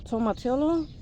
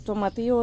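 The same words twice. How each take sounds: First: It is pronounced the English way. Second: It is pronounced the Spanish way.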